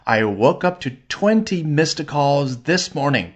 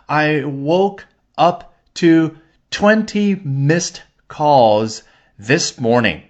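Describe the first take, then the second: First: The sentence is spoken at a faster pace. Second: The sentence is spoken at a slower pace.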